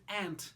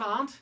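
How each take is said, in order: First: It is said with an American pronunciation. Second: It is said with a non-American pronunciation. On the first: "Some people in the U S A have trouble with the words they say" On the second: "Instead of aunt"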